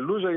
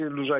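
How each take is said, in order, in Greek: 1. Ο τόνος είναι στην πρώτη συλλαβή. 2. Ο τόνος είναι στην τελευταία συλλαβή. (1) "άλλοι μισή τον λένε Λούζα" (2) "οι άλλοι μισή Λουζά"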